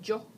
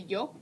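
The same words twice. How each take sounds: First: The word starts with a J sound. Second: The word starts with a soft Y sound. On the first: "kind of like with a J sound" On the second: "I say yo"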